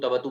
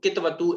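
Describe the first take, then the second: First: The opening k is held silently inside the mouth. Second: A full vowel follows the opening k sound. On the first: The speaker calls it right. "आधा का है वो मुख के अंदर ही उच्चारण" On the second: The speaker calls it wrong. "कई लोग इसको कितवतु ऐसा बोलने का प्रयास करते हैं, उसमें वो थोड़ा सा गड़बड़ हो जाता है"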